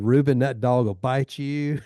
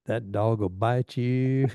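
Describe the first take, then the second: First: Warning. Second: Slow, drawn-out teasing warning; slow teasing echo. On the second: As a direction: draw it out like an old inside joke. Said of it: "he'd go". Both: Retold or imitated.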